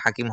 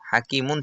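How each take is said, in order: First: The word ends on a bare consonant. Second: The word ends with a final -un sound. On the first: This is the form at a pause. "এটা হাকিম হবে" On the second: This is the form without a pause. "হাকিমুন ছিল"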